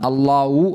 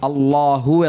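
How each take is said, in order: First: The last syllable starts with a w sound. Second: The last syllable starts with an h sound. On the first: The speaker calls it wrong. "ഹാവിനെ വാവാക്കിയിട്ട് ... എന്നല്ല" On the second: The speaker calls it right. "അല്ലാഹു എന്നാണ്"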